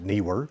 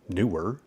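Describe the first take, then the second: First: The first syllable sounds like 'knee'. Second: The first syllable sounds like 'new'.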